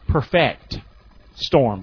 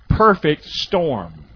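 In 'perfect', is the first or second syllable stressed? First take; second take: second; first. First: The stress in perfect is on the second syllable. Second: The stress in perfect is on the first syllable. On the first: "that word also can be pronounced this way" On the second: "Can you say that with me?"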